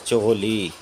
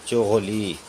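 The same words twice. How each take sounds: No difference in how they are said.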